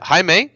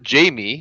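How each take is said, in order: First: The name is said the Spanish way, like Hi-meh. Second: The name is said the English way, like Jamie. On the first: "I believe the pronunciation you said is Jai- Jaime" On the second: "I pronounce it Jamie"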